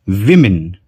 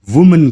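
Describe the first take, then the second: First: विमेन with a short i in the first syllable; plural women. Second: वुमन with a short u in the first syllable; singular woman. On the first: Teacher to students, विमेन with short i. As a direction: say विमेन as wi-min, no rounding. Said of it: "जिसका ओ का sound होता है ई का". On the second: Teacher to students, वुमन with short u. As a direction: say वुमन as wu-man, rounded u. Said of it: "दोनों के pronunciation में बहुत ज्यादा अंतर है". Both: Shown as a demonstration.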